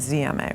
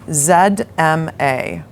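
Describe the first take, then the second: First: The Z is said as 'zee', American style. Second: The Z is said as 'zed', British style.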